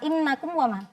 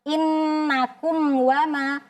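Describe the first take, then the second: First: The m is rushed and cut short. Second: The m is held fully and clearly. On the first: The speaker calls it wrong. "jangan terlalu cepat atau terburu-buru sehingga mimnya tadi tidak sempurna" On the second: The speaker calls it right. "Jadi mimnya kita jelaskan"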